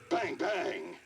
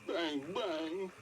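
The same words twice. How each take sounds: First: It is said in an angry tone. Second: It is said in a sad tone.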